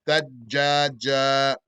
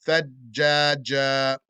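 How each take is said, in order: The two takes are said the same way.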